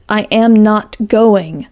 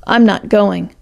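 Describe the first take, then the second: First: Slow, every word set apart; Alice May repeats her refusal to Jake, slow and firm. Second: Said in the usual way. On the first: A narrator's reading. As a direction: say it again, deliberately and slowly. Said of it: "repeated Alice May". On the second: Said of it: "announced Alice May".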